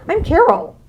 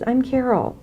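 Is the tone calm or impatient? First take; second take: impatient; calm. First: It is said in an impatient, irritated tone. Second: It is said in a calm, gentle tone. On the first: The speaker is annoyed at not being recognized. The speaker calls it wrong. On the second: The speaker is patient and respectful. The speaker calls it right. "make sure the tone of your voice is"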